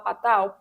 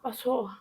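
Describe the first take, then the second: First: The name is said with a Portuguese-style ending. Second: The name is said with a French-style ending. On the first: "você pode falar Patal? Pode" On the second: "Patot, francês"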